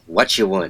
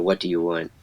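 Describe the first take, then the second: First: The 'do' is dropped and the words run together. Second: Every word, including 'do', is said clearly. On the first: "what you want instead of" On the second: "instead of what do you want"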